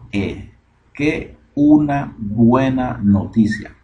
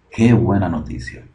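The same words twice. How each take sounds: First: "qué una buena noticia" slowly, each word separated and pitched up. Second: Said in the usual way. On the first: Shown as a demonstration. Teacher giving the literal translation, "qué una buena noticia" word by word. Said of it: "Esto es palabra por palabra". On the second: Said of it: "la interpretación real".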